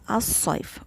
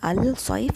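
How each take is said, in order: First: The l blends into the following consonant. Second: The l of the article is clearly pronounced. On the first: The speaker calls it right. "it is As-Saif. We can't hear the lam" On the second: The speaker calls it wrong. "So it is not Al-Saif"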